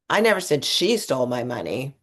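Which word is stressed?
she. The stress falls on the word 'she'. Someone else took it. "I actually thought this other person did it"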